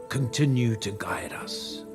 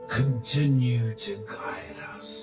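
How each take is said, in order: The two takes are said the same way.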